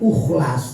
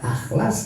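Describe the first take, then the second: First: The word begins with a u vowel. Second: The word begins with an a vowel. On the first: "jangan dibaca ukhlas" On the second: "Jangan dibaca akhlas"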